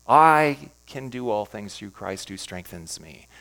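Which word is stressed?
I. The word "I" is stressed.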